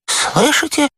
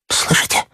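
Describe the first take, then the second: First: High, voiced frightened moan; high-pitched terrified question; moaning in fear. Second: Terrified whisper; breathy, hushed fright; moaning in fear. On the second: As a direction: whisper it in dread. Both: A narrator's reading. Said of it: "простонал он".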